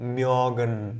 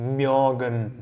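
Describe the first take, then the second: Both takes have the same delivery.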